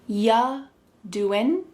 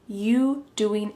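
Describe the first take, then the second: First: The word you is reduced to ya. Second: The word you is said in full. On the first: "The word you is reduced to ya" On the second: "When we say you doing"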